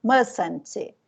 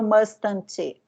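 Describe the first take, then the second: First: "Mustn't" as mus-n't, the first t silent; correct pronunciation. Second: "mustn't" with the first t sounded, must-tn't; wrong pronunciation. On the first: Teacher showing students the right "Mustn't", t dropped. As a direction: say "Mustn't" gliding from s to n with no t. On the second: Teacher showing how not to say "mustn't", pronounced with the t. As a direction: say "mustn't" hitting both t's clearly. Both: Shown as a demonstration. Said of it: "eu não falo mustn't".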